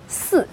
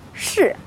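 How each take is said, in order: First: The word begins with an 's' sound. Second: The word begins with a 'sh' sound.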